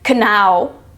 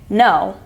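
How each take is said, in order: First: The word starts with a sounded K. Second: The word starts with an N sound. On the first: The speaker calls it wrong. "You don't say kanow" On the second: The speaker calls it right. "you say no"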